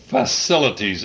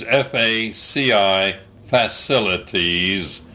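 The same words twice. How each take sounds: First: Said in the usual way. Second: Letters F A C I spelled, then facilities; spelling it out. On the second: Shown as a demonstration.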